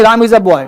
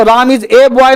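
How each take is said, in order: First: Put-on a said short as "uh" in Ram is a boy; the right way, a short and light; right take, "uh". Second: Put-on a said as long "ay" in Ram is a boy; the wrong way, slow, a as "ay"; wrong take, "ay". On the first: (सही उच्चारण, a को छोटा "अ" बोलना) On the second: (गलत उच्चारण, a को "ए" बोलना) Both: Shown as a demonstration. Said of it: "नहीं".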